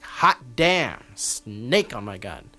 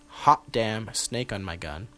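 First: It is said excitedly, like exclamations. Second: It is said flatly, like a plain title.

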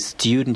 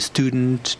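First: A y sound comes before the vowel. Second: No y sound comes before the vowel. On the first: "you can pronounce this with a year" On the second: "or you can pronounce it without the yod"

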